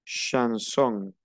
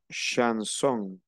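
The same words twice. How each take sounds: First: Chanson again, sh and nasal on; French ch. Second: Chanson, ch as sh; French ch. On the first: Teacher repeats chanson after the sha sound. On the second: Teacher models chanson for the class. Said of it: "el sonido es she". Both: Shown as a demonstration.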